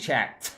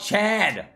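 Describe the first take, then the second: First: Said carefully, the final t is clearly released. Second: Said quickly, the final sound blurs toward d. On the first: "I'm gonna start pronunciating chat. Tuh. The very end" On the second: "I kind of say it fast, so it comes out as Chad"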